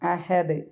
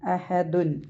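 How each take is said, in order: First: The word ends on a stopped final consonant. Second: The word ends with an added -un sound. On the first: "സുക്കൂൻ ഇട്ടിട്ടാണ് നമ്മൾ അവസാനിപ്പിക്കേണ്ടത്" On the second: "ലമ്മ തൻവീനിൽ എൻഡ് ചെയ്യുന്നത്"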